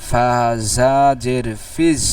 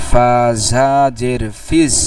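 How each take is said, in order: Both takes have the same delivery.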